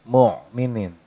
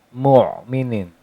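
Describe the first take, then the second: No difference in how they are said.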